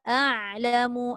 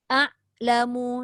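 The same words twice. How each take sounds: First: The ain sound is held slightly before releasing. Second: The ain sound stops abruptly with no trailing sound. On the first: The speaker calls it right. "baru ada tawassud" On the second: The speaker calls it wrong. "namanya syiddah ... dia tak ada langsung ekor kat ujung, kosong terus"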